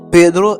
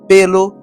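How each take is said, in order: First: The middle consonant is a rolled R sound. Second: The middle consonant is an L sound. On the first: This is how a fluent Spanish speaker says it. "mot qui gen R là dans yo" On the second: This is how a Haitian Creole speaker says it. "N'a remplacé R là par L"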